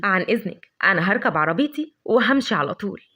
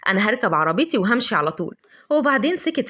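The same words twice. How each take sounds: First: Lower, sly mocking goodbye, drawing out وهمشي; sarcastic. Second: Walk off fed up, stressing عربيتي; annoyed. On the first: Adham's mocking farewell to Lavender, low sarcastic. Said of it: "بقليل من الخبث والسخرية". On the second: Acted. Adham leaving in annoyance, irritated on عربيتي. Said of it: "بغيظ".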